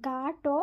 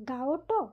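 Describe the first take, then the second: First: গাটো with a long aa, gaa-ṭo; গাটো with no o-glide, gaa-ṭo; lengthened vowel. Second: গাওটো with a light o after the aa, gao-ṭo; গাওটো glided as gaa-o-ṭo; faint o-glide. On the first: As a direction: hold the aa in গাটো straight into ṭo. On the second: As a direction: slip a small o into গাওটো before ṭo. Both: Shown as a demonstration. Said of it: "একই রকমভাবে".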